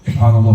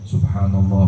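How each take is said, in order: First: It is said quickly, hurried. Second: It is said slowly, reflectively.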